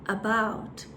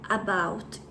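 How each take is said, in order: First: The first vowel is a short, relaxed schwa. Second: The first vowel is a full, open vowel. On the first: The speaker calls it right. "é um about. Ele tem mais ou menos esse som" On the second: The speaker calls it wrong. "Não é um about"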